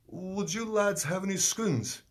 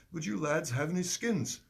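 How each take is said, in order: First: Put-on slow, high English accent, "scones" for the word. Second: Put-on higher English accent, "skins" said short with a clear i. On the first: Stranger on the balcony asking the lads, in a high English accent. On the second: Stranger repeating his request, in a lightly higher English accent. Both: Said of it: "I don't like to do the English accent".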